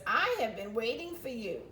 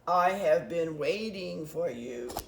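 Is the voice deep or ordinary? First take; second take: ordinary; deep. First: It is read in an ordinary voice. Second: It is said in a deep voice.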